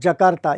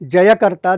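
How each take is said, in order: First: The name begins with a short 'ja' sound. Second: The name begins with a 'jay' sound. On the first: The speaker calls it wrong. "ये गलत है" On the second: The speaker calls it right. "वहाँ के लोग उसे जयकर्ता, the city of victory, यही कहते हैं"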